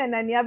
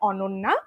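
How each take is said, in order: First: The first vowel is open, like an a. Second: The first vowel is rounded, like an o. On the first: This is the form most people use. "everyone calls me Ananya because that's like the more Indian pronunciation" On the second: This is the original family form of the name. "the pronunciation of my name is actually Ononna ... it's a Bengali pronunciation"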